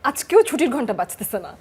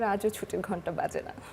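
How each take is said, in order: First: It is said in an angry tone. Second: It is said in a sad tone. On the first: "রাগ দেখিয়ে বললে" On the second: "দুঃখ"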